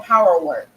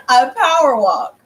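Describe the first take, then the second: First: "power work" with an ER vowel in the last word; slip of tongue. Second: "power walk" slowly, with an open AW vowel; corrected word. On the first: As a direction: stumble into saying "power work" for power walk. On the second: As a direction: say "power walk" slower and more firmly as a correction. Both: Real, not acted. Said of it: "excuse me".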